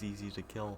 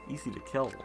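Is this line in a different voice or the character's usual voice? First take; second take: different voice; usual voice. First: It is said in a mismatched put-on voice. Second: It is said in the character's usual voice. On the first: The speaker calls it wrong. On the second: The speaker calls it right.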